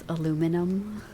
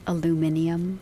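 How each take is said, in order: First: The word is said with four syllables. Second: The word is said with five syllables. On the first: The speaker calls it right. "it's aluminum" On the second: The speaker calls it wrong. "a lot of people say it with an extra letter"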